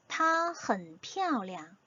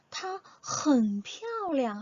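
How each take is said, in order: First: Said in the usual way. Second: 很 drawn out long and pitched high; stress on 很. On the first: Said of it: "다시 한번 읽어볼게요". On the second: Shown as a demonstration. Teacher shows how to emphasize "very", heavy stress on 很. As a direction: hit 很 hard and stretch it. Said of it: "얘를 세게 읽어줄 수 있어요".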